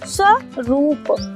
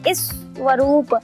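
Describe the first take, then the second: First: It starts directly with the s consonant cluster. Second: It starts with an added short i vowel. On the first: The speaker calls it right. "फिर हम उसे सा ही पढ़ते हैं, इस नहीं पढ़ते" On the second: The speaker calls it wrong. "वो हर बार इस ही पढ़ेगा"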